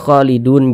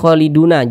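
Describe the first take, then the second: First: The word ends on the consonant n. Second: The word ends on a final vowel a. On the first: The speaker calls it right. "ini kan kita baca khalidun" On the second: The speaker calls it wrong. "jangan dibaca khaliduna"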